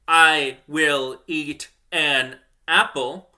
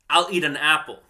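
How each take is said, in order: First: I will is said as two full words. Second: I will is merged into one syllable. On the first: The speaker calls it wrong. "I don't say" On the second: The speaker calls it right. "I say"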